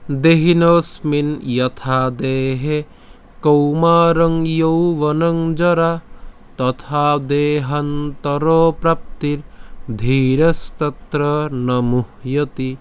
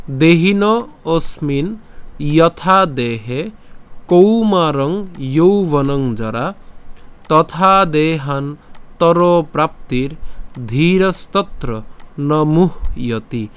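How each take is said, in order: First: Slow, melodic chant of the verse; chanted in tune. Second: Slow, phrase by phrase with pauses; broken-up recitation. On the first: Teacher showing how the verse sounds when chanted, slow and melodic. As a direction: chant the shloka with a flowing tune. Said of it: "যদি সুর করে উচ্চারণ করি". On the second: Teacher reading the broken verse so pronunciation is clearer, slow. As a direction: break the verse into small pieces, slowly. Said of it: "এই শ্লোকটিকে একটু ভেঙে দিয়েছি". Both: Shown as a demonstration.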